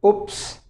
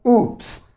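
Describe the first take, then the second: First: "Oops" with a short, clipped oo; first way of saying "Oops"; short-vowel oops. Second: "oops" with the oo drawn out; second way of saying "oops", long vowel. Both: Shown as a demonstration. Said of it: "you can pronounce it this way".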